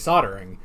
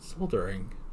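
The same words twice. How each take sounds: First: The L sound is left out. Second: The L sound is clearly pronounced. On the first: This is how Americans say it. "We say soldering" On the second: This is how the other side of the ocean says it. "That's not how we say it"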